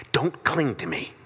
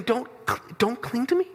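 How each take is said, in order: First: Said in the usual way. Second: Disbelieving repeat, rising at the end; incredulous echo. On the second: Retold or imitated. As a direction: echo the words as if outraged. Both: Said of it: "and you're saying".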